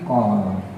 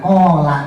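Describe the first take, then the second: First: The word ends on the consonant. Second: The word ends with a final vowel. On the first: The speaker calls it right. "tapi kol" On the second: The speaker calls it wrong. "bacanya jangan kola"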